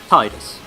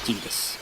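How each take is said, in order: First: The first syllable sounds like the word 'tide'. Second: The first syllable does not sound like 'tide'. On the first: The speaker calls it right. "like tide, like water" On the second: The speaker calls it wrong. "not Titus"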